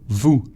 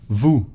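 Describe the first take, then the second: No difference in how they are said.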